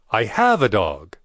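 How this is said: The word 'have' is stressed.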